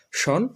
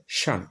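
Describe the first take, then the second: First: শন with a rounded "o" vowel, "shon"; old pronunciation. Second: শান with an open vowel, "shan", falling; new pronunciation. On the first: Teacher recalls the old ending, শন as "shon". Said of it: "আগে উচ্চারণ করতাম". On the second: Teacher models the new ending, শান as falling "shan". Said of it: "সেখানে উচ্চারণ হবে". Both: Shown as a demonstration.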